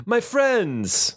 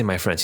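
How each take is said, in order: First: "My friends" met hoog ingezet en zwaar accent op "My"; mock Teagish inflection, rising high on My. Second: Said in the usual way. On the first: Shown as a demonstration. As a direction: swoop way up on "My" in "My friends". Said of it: "He says". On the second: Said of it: "he does not say".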